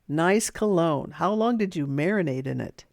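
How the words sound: The tone is flat and unfriendly, sounding mean. The remark comes across as a real insult. The speaker calls it wrong. "that doesn't sound very nice"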